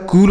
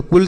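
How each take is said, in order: First: कुल with a long oo; correct long oo. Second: कुल with a short, quick u; wrong short u. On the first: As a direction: stretch the vowel of कुल, like "cool". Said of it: "कुल होता है ना". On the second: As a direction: cut the vowel of कुल short. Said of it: "कुल तो नहीं होता है". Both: Shown as a demonstration.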